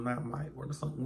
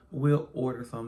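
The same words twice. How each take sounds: First: Said in the usual way. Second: Will order some, with will pushed louder; stress on will. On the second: Real, not acted. Correcting herself about the guests, stress on will. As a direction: lean on will to correct yourself.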